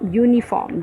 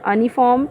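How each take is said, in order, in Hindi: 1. शब्द y ध्वनि से शुरू होता है। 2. शब्द एक साधारण स्वर से शुरू होता है।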